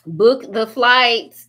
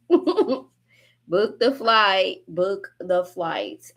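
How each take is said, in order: First: Book the flight, said very slowly and firmly; slow emphatic command. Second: Book the flight stretched out through laughter; slow laughing repeat. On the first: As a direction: drag out each word of Book the flight. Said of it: "slow emphatic". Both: Real, not acted.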